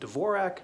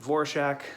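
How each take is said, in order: First: The name begins with a D sound. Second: The name begins with a V sound. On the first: This is how the name is usually said. "typically, people with that last name pronounce it Dvorak" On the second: This is how the actress herself said it. "she pronounced it Vorshak"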